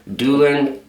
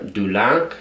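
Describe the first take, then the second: First: It is pronounced the plain English way. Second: It is pronounced the French way.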